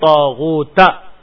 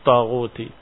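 First: The word ends with an a vowel. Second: The word ends with an i vowel. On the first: The word is the object of the verb. "difathahkan ta'nya" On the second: The word is the second part of a possessive phrase. "mudhafa mudhaf ilaih"

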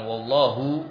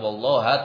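First: The word ends with an u vowel. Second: The word ends with an a vowel. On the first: "bukan wallahu" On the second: "bukan wallaha"

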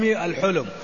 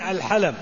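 First: The first vowel is u, as in hulm. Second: Both vowels are a, as in halam. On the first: "بالضم" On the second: "وبفتحتين"

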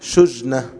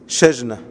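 First: The first vowel is a 'u' sound. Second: The first vowel is an 'a' sound. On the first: "ويمكن أن تكون بالضم" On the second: "هكذا بالفتح"

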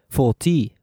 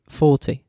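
First: The stress is on the second syllable. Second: The stress is on the first syllable. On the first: The speaker calls it wrong. "We don't say 40" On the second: The speaker calls it right. "falls on the same original syllable"

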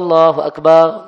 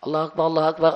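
First: The phrase is said slowly and drawn out. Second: The phrase is said quickly, without drawing it out. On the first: This is the call announcing the prayer time. "Namun kalau azan, dianjurkan, ya tamahal" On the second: This is the call that starts the prayer itself.

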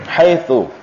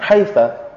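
First: The word ends in the vowel u. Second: The word ends in the vowel a. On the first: This is the standard form. "mabniyatun 'ala dhammi" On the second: "membinakannya dengan fathah"

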